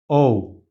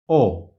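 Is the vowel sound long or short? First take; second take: long; short. First: The vowel is held longer. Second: The vowel is cut shorter. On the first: "In English, we say O" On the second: "It's like English, but shorter"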